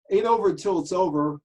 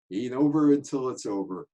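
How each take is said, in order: First: Higher and louder, punching "over"; emphatic repeat. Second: Said in the usual way. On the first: Shown as a demonstration. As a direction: hammer home the second "over". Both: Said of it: "repeats the famous line".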